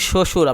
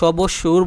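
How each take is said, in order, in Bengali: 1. প্রথম ব্যঞ্জনের পরে কোনো 'b' ধ্বনি নেই। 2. প্রথম ব্যঞ্জনের পরে 'b' ধ্বনি শোনা যায়। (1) "শ্বশুরই বলি" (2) "আমরা সবসুর বলি না"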